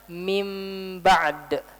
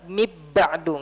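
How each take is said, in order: First: The n becomes a blurred nasal m. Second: The n sound merges into the b. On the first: The speaker calls it right. "Baca dengan ikhfa. Tapi sebelum diikhfakan, kita ubah dulu jadi mim" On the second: The speaker calls it wrong. "nggak dibaca dengan idgham"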